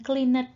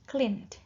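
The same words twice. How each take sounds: First: The e is voiced as an extra syllable. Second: The n runs straight into a final d. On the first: The speaker calls it wrong. "bukan cleaned, bukan begitu ya" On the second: The speaker calls it right. "E-nya tidak dibaca ya. Dari N langsung letupan D ya"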